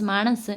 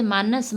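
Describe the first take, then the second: First: मानस with a retroflex ण, said maṇas; retroflex n dialect form. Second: Said in the usual way. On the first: Shown as a demonstration. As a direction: curl the tongue back for the n in मानस. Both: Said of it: "ने के स्थान पर णे".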